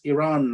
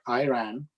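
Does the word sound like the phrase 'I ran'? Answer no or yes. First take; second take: no; yes. First: The word does not sound like 'I ran'. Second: The word sounds like the phrase 'I ran'. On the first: The speaker calls it right. "it's Iran" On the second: The speaker calls it wrong. "the way he said it accurately described what I did next"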